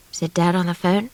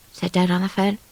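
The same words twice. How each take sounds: The two takes are said the same way.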